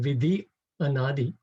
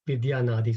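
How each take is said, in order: First: The vowels stay separate, giving five syllables. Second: The vowels join with a y, giving four syllables. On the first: The speaker calls it wrong. "instead of saying" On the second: The speaker calls it right. "So that removes one syllable"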